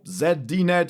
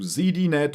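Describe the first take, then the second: First: The name is said with a European-like pronunciation. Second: The name is said without a European-like pronunciation.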